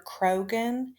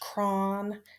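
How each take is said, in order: First: The name is said with two syllables. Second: The name is said with one syllable. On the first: The speaker calls it wrong. "I have been calling this man Doctor Krogan" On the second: The speaker calls it right. "his real name is pronounced Cron"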